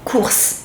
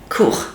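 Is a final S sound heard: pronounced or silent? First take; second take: pronounced; silent. First: The word ends with an audible S sound. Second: The word ends without an S sound. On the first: It means grocery shopping. "You pronounce S" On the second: It means classes or lessons. "the S is silent"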